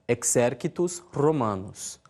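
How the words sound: It uses the reconstructed classical Latin pronunciation. "na pronúncia reconstituída"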